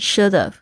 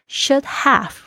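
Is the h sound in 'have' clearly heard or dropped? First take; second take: dropped; heard. First: Said fast, with the h sound dropped. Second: Said carefully, with the h sound in 'have'.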